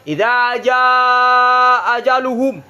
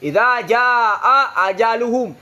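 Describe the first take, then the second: Both takes have the same delivery.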